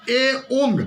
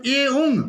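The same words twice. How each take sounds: First: "ए" said apart, then "ओंग"; ए separated. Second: "ए ओंग" run together as one; joined. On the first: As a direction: pause after ए, then ओंग. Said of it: "ए को अलग किया". ("ए" को अलग करके बोलें) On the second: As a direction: glide ए straight into ओंग. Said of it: "दोनों को एक साथ पढ़े". ("ए ओंग" एक साथ पढ़ें) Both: Shown as a demonstration.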